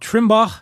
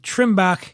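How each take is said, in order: First: The name is said in a standard pronunciation. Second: The name is said in a Philadelphia pronunciation.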